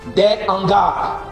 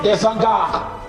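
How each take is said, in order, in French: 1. Aucun son z ne relie les deux mots. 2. Un son z relie les deux mots. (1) "H de hangar, c'est aspiré. Donc on va dire" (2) "et non"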